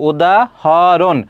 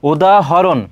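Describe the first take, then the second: First: উদাহরণ very slowly, broken into separate parts; syllable-split pronunciation. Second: Said in the usual way. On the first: Shown as a demonstration. Teacher showing students how উদাহরণ sounds, slowly split into syllables. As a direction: draw out উদাহরণ piece by piece. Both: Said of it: "যেটা উচ্চারণ করছো খণ্ড খণ্ডভাবে".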